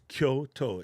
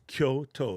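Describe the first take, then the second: First: The word is said with two syllables. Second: The same.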